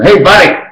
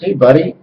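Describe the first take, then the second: First: It is said loudly, almost shouted. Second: It is said in a low, quiet voice.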